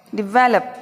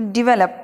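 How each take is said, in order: First: develop with stress on the second syllable वल; stressed take. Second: Said in the usual way. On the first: Shown as a demonstration. Teacher proudly gives the stressed develop this time. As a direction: punch the middle of develop. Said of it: "मैंने stress भी दिया इस बार". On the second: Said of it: "देखते हैं क्या सही है".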